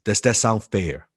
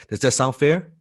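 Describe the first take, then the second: First: Said in the usual way. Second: "Does that sound fair?" with the pitch lifting on "fair"; inviting upward tune on "fair"; rising question tone. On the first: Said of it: "Remember the tonality?". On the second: Shown as a demonstration. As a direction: end "fair" going up, like a real question. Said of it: "Upward, it's a question".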